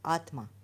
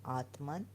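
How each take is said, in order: First: The word ends without an n sound. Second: The word ends with an n sound. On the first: The speaker calls it right. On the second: The speaker calls it wrong.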